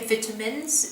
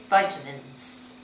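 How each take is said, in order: First: It is said in a British accent. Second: It is said in an American accent.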